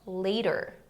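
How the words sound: It is said in an American accent. "em inglês americano"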